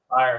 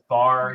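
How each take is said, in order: First: The vowel glides into a full 'eye-er' sound. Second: The vowel is flattened, sounding like 'far'. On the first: "doesn't say fire" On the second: "He says far"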